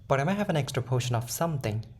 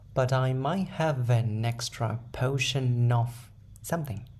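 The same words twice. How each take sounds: First: The sentence is said quickly. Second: The sentence is said very slowly. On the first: "In a fast way" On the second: "all together in a very slow way"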